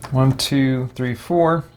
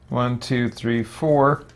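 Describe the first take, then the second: No difference in how they are said.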